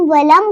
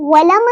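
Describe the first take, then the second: First: वलम shut on the M; correct closed M. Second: वलम opened into "walama"; wrong bounced M. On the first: Teacher names the right form, closed वलम. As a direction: end वलम on closed lips. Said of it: "वलम को वलम नहीं पढ़ेंगे". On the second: Teacher shows the error, bounced वलम. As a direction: add an echo vowel after the M of वलम. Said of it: "वलम नहीं पढ़ेंगे". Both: Shown as a demonstration.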